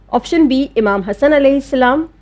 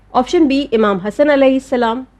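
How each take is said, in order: The two takes are said the same way.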